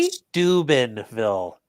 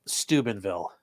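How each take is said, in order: First: The word is said slowly and deliberately. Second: The word is said at a normal pace.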